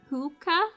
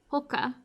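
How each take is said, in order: First: The first vowel is a long ooh sound. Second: The first vowel is a short sound. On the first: "Do you say it like ooh?" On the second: "Or do you just say it like"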